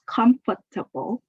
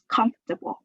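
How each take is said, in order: First: The word is said with four syllables. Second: The word is said with three syllables. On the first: "you can pronounce it in four syllables" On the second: "or you can say it in just three syllables"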